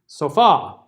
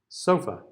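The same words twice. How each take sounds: First: The final vowel is a full stressed vowel. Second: The final vowel is a weak schwa.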